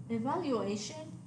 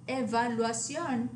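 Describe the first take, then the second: First: Evaluation ending in AY-shun; English evaluation, stress on A; English pronunciation. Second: Evaluación ending in ah-SYON; Spanish evaluación, stress on the final o; Spanish pronunciation. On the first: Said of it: "the English word". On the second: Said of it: "accent on the O". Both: Shown as a demonstration.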